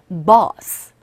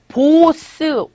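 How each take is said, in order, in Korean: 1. 이 모음은 턱을 내려서 입을 벌린 상태예요. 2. 이 모음은 입을 둥글게 오므린 한국어 'o'예요. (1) "오와 어 중간이라고 발음하시면 돼서 이 입을 이렇게 오 한 상태에서 턱을 아래로 내려주세요" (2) "우리식으로 발음하면 보스"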